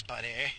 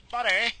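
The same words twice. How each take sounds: First: Said in the usual way. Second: Higher, louder call. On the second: Real, not acted. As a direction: call out sharply to the other driver. Calls out at driver behind.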